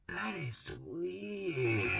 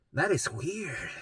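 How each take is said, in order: First: Drawn-out, very soft and slow, in mom's voice; mom's slow ominous "That is weird". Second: 1 mom's plain take. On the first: Mom judging her daughter's symptoms, slow hushed mock voice. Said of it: "my mom go like this, and she'd go". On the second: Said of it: "she's like". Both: Retold or imitated.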